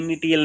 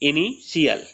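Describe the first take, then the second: First: The middle consonant is a plain 't' sound. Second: The middle consonant is a 'sh' sound. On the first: The speaker calls it wrong. "ये इनिटियल नहीं होता" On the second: The speaker calls it right. "इनिशियल होता है"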